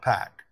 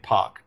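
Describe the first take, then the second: First: The name has the American pronunciation. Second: The name has the hometown crowd's local pronunciation. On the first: "not Pac" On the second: "they were chanting Pac"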